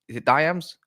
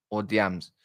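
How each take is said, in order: First: Diams said as "DIE-ams", rising in question; trying a pronunciation. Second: Diams said as "DEE-ams", falling; other pronunciation. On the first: Streamer asks a viewer how to say his name, trying DIE-ams. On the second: Streamer offers the second way to say a viewer's name, DEE-ams. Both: Shown as a demonstration. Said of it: "always ask you how to say your name".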